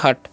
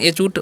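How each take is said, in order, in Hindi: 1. यह सादी 'h' ध्वनि से शुरू होता है। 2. यह 'aitch' नाम के अक्षर से शुरू होता है। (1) "एच का उच्चारण ह ... तो हो गया हट" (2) "लेकिन एच ऊट नहीं पढ़ना है"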